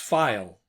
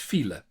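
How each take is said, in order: First: It is pronounced like the English word. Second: It is pronounced as the Dutch word. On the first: The speaker calls it wrong. "they pronounce that as file" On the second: The speaker calls it right. "the word for traffic jam in Dutch is file"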